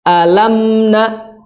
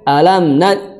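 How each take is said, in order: First: The nasal sound is held with a slight pause. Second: The nasal sound is rushed and cut short. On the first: The speaker calls it right. "sedikit dikasih jeda dengan suara gunnah" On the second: The speaker calls it wrong. "Jangan sampai"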